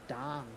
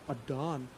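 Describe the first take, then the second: First: The name is said in a plain, ordinary way. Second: The name is said in a dramatic, drawn-out way.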